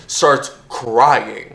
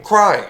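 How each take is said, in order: First: Said in the usual way. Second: Crying. said higher and louder; stress on Crying. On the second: Shown as a demonstration. Telling a friend what happened, Crying. punched high. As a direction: hit Crying. as its own word.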